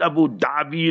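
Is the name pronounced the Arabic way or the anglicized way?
anglicized. The name is said with anglicized pronunciation. The speaker calls it wrong. "Not Abu Dhabi, like how you all say"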